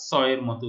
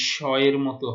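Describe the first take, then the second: First: স said "so", a sharp s with no h; dental s for স. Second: স said "sho", a loud hushing sh; sh sound for স. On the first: Teacher contrasting the rule, স as a dental "s". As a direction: make স a plain English "s" in স এর মতো. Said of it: "দন্ত স লিখব". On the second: Teacher repeating the rule, স as a loud palatal "sh". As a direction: hit স as "sh" in স এর মতো. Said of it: "তালব্য স লিখব". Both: Shown as a demonstration.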